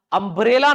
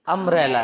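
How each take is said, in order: First: "अम्ब्रेला" with a strong b and long e; Hindi-style "अम्ब्रेला" as "um-bray-la"; b sounded. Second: "अम्ब्रेला" as "um-rel-la"; "अम्ब्रेला" with no b and an open e; swallowed b. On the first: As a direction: hit the b in "अम्ब्रेला", loud. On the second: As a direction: run m straight into r in "अम्ब्रेला". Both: Shown as a demonstration. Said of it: "अम्ब्रेला नहीं है बेटा".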